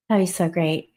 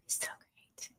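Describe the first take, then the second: First: Said in the usual way. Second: Breathy unvoiced whisper of delight; soft whispered longing. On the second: Real, not acted. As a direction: breathe it out like a dreamy wish. Dreamy aside after wine invitation.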